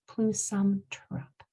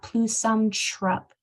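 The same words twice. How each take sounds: First: Trup begins with a clearly enunciated t-r. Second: Trup begins with a ch-like sound. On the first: The speaker calls it right. "It's plusum trup" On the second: The speaker calls it wrong. "So it's not plusum trup"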